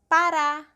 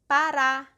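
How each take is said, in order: No difference in how they are said.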